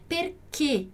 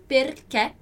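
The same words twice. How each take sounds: First: "perché" with a closed e, "per-KAY" without the glide; closed final E. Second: "perché" with an open e, "per-KEH"; open final E. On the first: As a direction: end "perché" on a tight, closed e. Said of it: "a gente também vai ouvir na Itália". ("perché" com ê fechado) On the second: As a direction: end "perché" on a wide-open eh. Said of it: "Eu falo assim". ("perché" com é aberto) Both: Shown as a demonstration.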